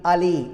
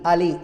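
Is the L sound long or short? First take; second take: short; short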